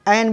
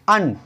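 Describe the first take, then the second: First: The article is said with an 'e' vowel. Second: The article is said with a short 'uh' vowel. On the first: The speaker calls it wrong. "दूसरा इसका एन भी बोलते हैं" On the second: The speaker calls it right. "इसके लिए उच्चारण में हम अन"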